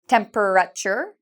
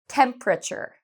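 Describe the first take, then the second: First: The word is said with more than three syllables. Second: The word is said with three syllables. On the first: The speaker calls it wrong. "Many students will say temperature, but we don't say it this way" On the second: The speaker calls it right. "so there are three syllables in this one"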